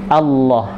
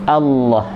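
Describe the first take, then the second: Both takes have the same delivery.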